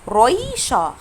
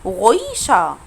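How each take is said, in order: First: The first r is made with the tongue tip. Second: The first r is a guttural, gh-like sound. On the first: "لو ما نطقتش حرف الار بالاغين" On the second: "بالاغين اللي هو الاولاني ده"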